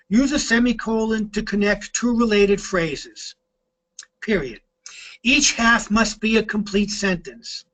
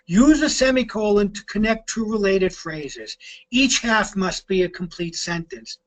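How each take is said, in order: First: There is a full stop pause between sentences. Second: There is a shorter semicolon pause between sentences.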